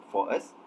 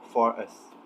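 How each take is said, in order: First: "for us" without inserting the r sound; "for us" with the r left out between vowels; no linking r. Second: "for us" with an r sound joining the words; "for us" as in received pronunciation, r inserted; received pronunciation linking r. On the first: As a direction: keep "for us" as two separate words, no r. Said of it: "basically without inserting the r sound". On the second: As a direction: link "for us" smoothly through an r. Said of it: "in received pronunciation, we would pronounce it". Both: Shown as a demonstration.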